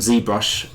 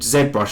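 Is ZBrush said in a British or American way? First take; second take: American; British. First: ZBrush is said the American way. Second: ZBrush is said the British way.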